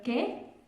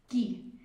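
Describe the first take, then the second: First: It is said with a standard Spanish vowel. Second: It is said with a Quechua-accented vowel.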